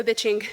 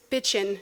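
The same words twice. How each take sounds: First: Bitching said with a full, clear -ing ending. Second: Bitchin' ending in a short -in with no G; dropped G. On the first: Teen swearing, bitching with its final G. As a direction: say bitching with the G sounded out at the end. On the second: Pete correcting her, bitchin' with the G dropped. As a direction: clip bitchin' to a casual -in ending. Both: Shown as a demonstration. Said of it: "You gotta drop that G".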